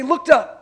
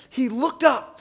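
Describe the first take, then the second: First: "Looked up." said louder as a call for the crowd to repeat; call for a response. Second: Said in the usual way. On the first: Shown as a demonstration. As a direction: prompt the congregation with "Looked up.".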